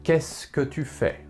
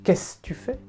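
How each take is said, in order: First: Every word is said carefully and fully. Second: It is said quickly, with words run together.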